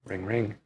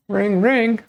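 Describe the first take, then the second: First: Said in the usual way. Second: High, loud sing-song ring ring; phone ring imitation. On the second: Shown as a demonstration. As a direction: chime it out like a ringing phone. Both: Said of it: "forgot how to ring ring".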